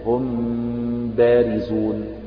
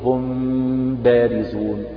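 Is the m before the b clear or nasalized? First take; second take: nasalized; nasalized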